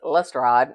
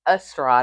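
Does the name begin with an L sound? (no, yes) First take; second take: yes; no. First: The name starts with an L sound. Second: The name starts without an L sound. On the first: The speaker calls it right. "his name is Lestrade" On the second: The speaker calls it wrong. "I mispronounced his name"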